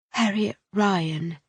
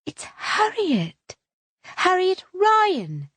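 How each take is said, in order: First: Said in the usual way. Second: High, slow, drawn-out introduction; gushing Harriet. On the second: A narrator's reading. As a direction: savour your own name grandly. Harriet announces her own name.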